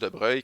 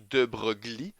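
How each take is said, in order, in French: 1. Le nom se prononce autrement que son orthographe. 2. Le nom se prononce en suivant son orthographe. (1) "mais ça se prononce" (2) "c'est écrit"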